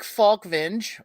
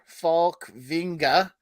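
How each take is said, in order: First: The name is said in an English-like way. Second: The name is said in a Swedish-like way.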